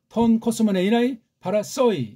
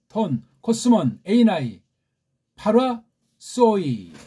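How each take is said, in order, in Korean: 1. 빠르게, 낱말들이 이어져서 읽습니다. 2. 천천히, 낱말마다 끊어 읽습니다. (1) "약간 빨리 읽어드렸어요" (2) "약간 천천히고 낱말의 포인트를 두느라고 읽었는데"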